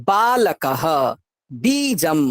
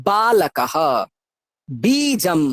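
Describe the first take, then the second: The two takes are said the same way.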